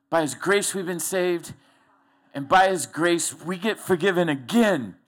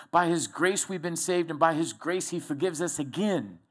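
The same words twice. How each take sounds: First: Stepped away and preaching it out, louder; preached louder. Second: Said in the usual way. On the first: Shown as a demonstration. Preacher repeating the verse to the congregation, preaching louder. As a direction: proclaim the line like from the pulpit. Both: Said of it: "I preach over here".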